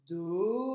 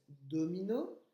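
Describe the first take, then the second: First: "Domino" étiré et fort, syllabe par syllabe; découpé en syllabes. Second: Said in the usual way. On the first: Shown as a demonstration. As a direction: compter les syllabes de "Domino" en les allongeant. (en scandant lentement chaque syllabe de "Domino") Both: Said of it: "il y a trois syllabes".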